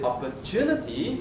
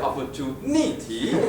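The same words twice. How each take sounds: First: The stress is on the third syllable. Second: The stress is on the fourth syllable.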